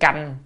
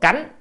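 First: The word is said on a level tone. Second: The word is said on a rising tone. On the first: The word means to go through or undergo. The speaker calls it right. "nên đọc là âm canh" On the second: The word means again, which is redundant here. The speaker calls it wrong. "đọc cánh là nó dư"

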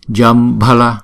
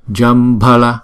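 No difference in how they are said.

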